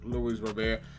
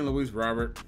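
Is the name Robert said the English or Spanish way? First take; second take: Spanish; English. First: Robert is said with a Spanish pronunciation. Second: Robert is said like the English name. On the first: The speaker calls it right. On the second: The speaker calls it wrong.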